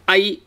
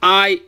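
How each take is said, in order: First: I as in ice; short ai. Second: I with a long a, as in guy; long aai. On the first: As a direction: Cantonese short ai. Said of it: "A I being I". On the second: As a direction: stretch the a in I. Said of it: "A A I is I". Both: Shown as a demonstration.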